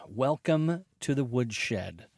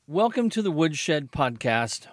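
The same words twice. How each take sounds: First: Drawn-out, softer, lower show intro; slow low announcer. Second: Said in the usual way. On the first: Shown as a demonstration. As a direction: savour the show name slowly. Repeating podcast greeting.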